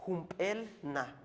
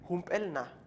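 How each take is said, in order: First: "Humpelna" said slowly, syllables drawn out; slow repetition. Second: Said in the usual way. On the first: Shown as a demonstration. Teacher to students, modeling "Humpelna" slowly. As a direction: repeat "Humpelna" slowly for learners. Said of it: "teacher repeats word slowly". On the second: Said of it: "teacher repeats word twice".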